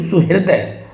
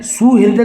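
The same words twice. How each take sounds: First: सुहृदय with short su; correct pronunciation. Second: सुहृदय with long, high "soo"; wrong pronunciation. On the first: Teacher showing students सुहृदय with short su. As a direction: say सुहृदय as "su-hirday", quick first syllable. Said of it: "ठीक है, इस तरह से". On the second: Teacher rejecting the error, सुहृदय with stretched soo. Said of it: "कभी नहीं होगा". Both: Shown as a demonstration.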